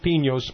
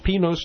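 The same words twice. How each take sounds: First: The n is a palatal 'ny' sound. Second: The n is a plain n sound. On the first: The speaker calls it wrong. "not Pinos" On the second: The speaker calls it right. "it is Pinos ... There's no tilde"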